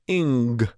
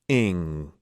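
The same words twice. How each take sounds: First: It ends with a hard g, then releases. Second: It ends on a soft, open ng sound. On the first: "we're going to put a bit of a hard G on the end of it and then release out of it" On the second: "This sound"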